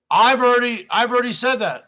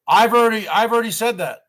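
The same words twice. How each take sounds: The two takes are said the same way.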